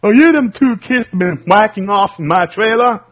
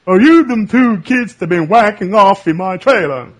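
First: Higher and louder cranky trailer-park accuser; Mister Anderson again. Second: Higher, louder cranky trailer owner accusing; Mister Anderson impression. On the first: Retold or imitated. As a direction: shout it like you caught them red-handed. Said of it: "Mister Anderson or something". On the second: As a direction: bark it at two kids caught in your trailer. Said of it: "You sounded like that character in".

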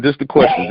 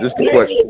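First: Said in the usual way. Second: Jumps way up into a squeaky high voice; playful squeak. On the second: Pretend. Host repeating the question to his guest, in a playful high squeak. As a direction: squeal the phrase in a tiny high voice.

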